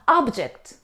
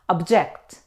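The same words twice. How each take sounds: First: The stress is on the first syllable. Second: The stress is on the second syllable. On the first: Something you can see or touch. "It's a noun, means something that you can see or touch" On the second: To refuse or disagree. "when we stress on the second syllable, we say object"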